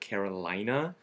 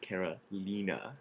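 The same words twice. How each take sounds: First: It is said like the American state name. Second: It is said with an Italian pronunciation. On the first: The speaker calls it wrong. "some people have a tendency to sometimes call it Carolina" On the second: The speaker calls it right. "she's actually Italian"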